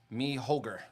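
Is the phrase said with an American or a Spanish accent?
American. It is said with an American accent. "the gringo way"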